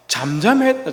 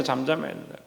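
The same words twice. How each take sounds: First: Said in the usual way. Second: 잠잠해야 dropped to a near hush, rising softly; hushed repeat. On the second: Shown as a demonstration. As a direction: say 잠잠해야 된다 again much softer and lower.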